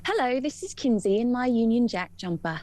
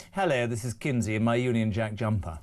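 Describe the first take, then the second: First: Mock-English, Eliza Doolittle style; put-on English accent. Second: Low-pitched English accent demo. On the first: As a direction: copy an English accent like an elocution pupil. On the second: Shown as a demonstration. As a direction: model the line in an English accent. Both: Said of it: "Can we do an English one?".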